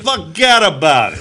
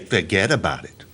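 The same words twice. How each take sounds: First: It is said in an exaggerated stereotypical ethnic accent. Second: It is said plainly, without any put-on accent.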